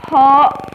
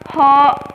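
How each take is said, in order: No difference in how they are said.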